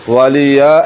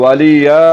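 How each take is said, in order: The two takes are said the same way.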